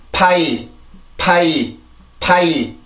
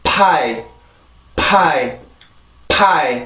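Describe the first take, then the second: First: 파이 said as one stressed syllable, pah gliding into ee; one push of the voice on 파이, English style; English pronunciation. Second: 파이 said as two even syllables, 파 then 이; flat even 파이 with no stress; Korean pronunciation. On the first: Teacher contrasting English 파이 with Korean, stressed single glide. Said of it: "영어입니다". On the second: Teacher showing the Korean reading of 파이, even and unstressed. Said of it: "한국어입니다". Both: Shown as a demonstration.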